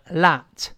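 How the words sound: The vowel is an open unrounded ah sound. "直接变成小写字母A 一样的这个啊"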